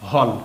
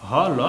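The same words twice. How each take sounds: First: হল in a single syllable; read joined. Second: হ, then ল, each with its vowel; letter by letter. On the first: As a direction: run হ straight into a final ল. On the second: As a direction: keep হ and ল apart. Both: Shown as a demonstration. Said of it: "পরপর দুটি অক্ষরে".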